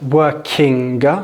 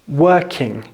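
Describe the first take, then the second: First: A hard g sound is heard at the end. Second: It ends in ng with no hard g. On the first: The speaker calls it wrong. "It's not working" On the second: The speaker calls it right. "it's working"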